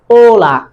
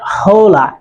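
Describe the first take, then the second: First: The word begins with a vowel, no h sound. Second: The word begins with an audible h sound. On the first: The speaker calls it right. "A is always silent. It will never be pronounced. So that's why it is hola" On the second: The speaker calls it wrong. "not hola"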